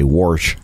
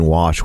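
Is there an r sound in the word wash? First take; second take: yes; no. First: The word has an added r sound. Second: The word has no r sound. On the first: "we say warsh" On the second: "instead of saying wash"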